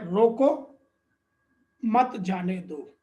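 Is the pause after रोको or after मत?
after रोको. There is a pause right after रोको.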